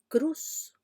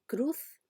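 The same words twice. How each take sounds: First: "cruz" ending in a plain S sound; seseo pronunciation. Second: "cruz" ending in a TH sound; without seseo. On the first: Teacher contrasting the seseo speaker's pronunciation. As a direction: say "cruz" with S not TH. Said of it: "la pronunciación de un hablante con seseo". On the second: Teacher showing the speaker without seseo. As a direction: say "cruz" with a Castilian TH. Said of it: "el hablante que no tiene seseo dice". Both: Shown as a demonstration.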